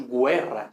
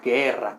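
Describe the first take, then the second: First: "guerra" said GWE-rra; "guerra" with a gw glide; U pronounced. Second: Said in the usual way. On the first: Shown as a demonstration. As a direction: sound the U in "guerra". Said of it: "no leemos guerra". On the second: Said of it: "pero escribimos las dos".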